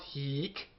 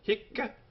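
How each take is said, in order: First: A long vowel is followed by a single k. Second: A short vowel is followed by a doubled k. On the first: The speaker calls it wrong. "it's not heek" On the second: The speaker calls it right. "Notice the double C on the end, even though one C only is written"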